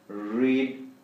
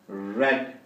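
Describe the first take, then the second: First: The vowel is long, like 'reed'. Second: The vowel is short, like 'red'. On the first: It is the present tense. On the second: It is the past tense.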